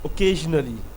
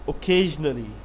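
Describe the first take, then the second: The two takes are said the same way.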